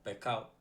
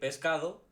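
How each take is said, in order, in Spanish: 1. La s se aspira, suena como una h suave. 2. La s suena como un silbido completo. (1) "nosotros decimos pescado" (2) "en vez de decir pescado"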